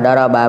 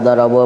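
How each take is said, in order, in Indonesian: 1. Kata ini berakhir dengan vokal a. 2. Kata ini berakhir dengan vokal u. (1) "Contoh daraba" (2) "tidak dibaca darabu"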